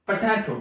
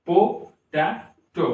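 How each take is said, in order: First: Said in the usual way. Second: potato slowly in three parts, po, ta, to; teacher's three-beat potato; syllable by syllable. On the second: Shown as a demonstration. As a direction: pause after each syllable of potato. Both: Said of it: "तो इसको आप pronounce करिए".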